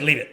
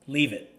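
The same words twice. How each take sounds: First: It is said in a sharp, stern voice. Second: It is said in an ordinary, calm voice. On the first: This is the correction. "That's the correction" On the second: This is the command. "in a normal voice say"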